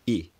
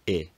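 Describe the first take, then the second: First: The vowel is tense and high. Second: The vowel is lax and lower. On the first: "very tense high tongue positions" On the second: "rather than the modern I"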